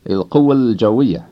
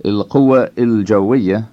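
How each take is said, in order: First: "القوة الجوية" as il-quwwal-jawwiya, vowels merged; merged, I dropped. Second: "القوة الجوية" as il-quwwa il-jawwiya, both vowels sounded; unmerged, I kept. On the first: Teacher showing learners the correct form, words merged. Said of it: "merges with the A at the end". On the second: Teacher showing learners what not to say, I kept unmerged. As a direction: keep "القوة الجوية" as separate words, with a distinct il before jawwiya. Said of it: "So you say not". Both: Shown as a demonstration.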